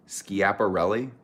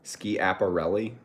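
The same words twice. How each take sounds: First: Schiaparelli again slowly as skee-ap-uh-RELL-ee, rising; slow questioning Schiaparelli; second try at the name. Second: Schiaparelli said slowly as skee-ap-uh-RELL-ee, rising; trying out a name. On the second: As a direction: sound out Schiaparelli carefully, unsure. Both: Shown as a demonstration. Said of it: "Is that how you say it?".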